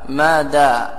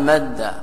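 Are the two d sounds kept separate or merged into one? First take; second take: separate; merged. First: The two d sounds are said separately. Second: The two d sounds merge into one doubled d. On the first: The speaker calls it wrong. "لو قيل ما دا رجع عن الحرف ... هذا فيه ثقل" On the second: The speaker calls it right. "بخلاف ما إذا قال مد مرة واحدة حينئذ يكون فيه نوع خفة"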